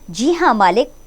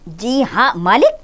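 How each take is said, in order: First: It is said calmly and plainly. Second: It is said angrily with a stammer.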